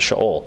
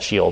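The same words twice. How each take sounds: First: The word is pronounced the Hebrew way. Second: The word is pronounced the English way. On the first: "in Hebrew we pronounce it Sheol" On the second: "We call it Sheol"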